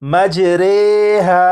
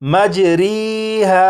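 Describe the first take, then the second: First: The vowel after r sounds like ay. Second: The vowel after r sounds like ee. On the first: The speaker calls it right. "इसे इस तरह पढ़ेंगे जैसे ये है रे रे" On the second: The speaker calls it wrong. "इस रा को मजरीहा नहीं पढ़ेंगे"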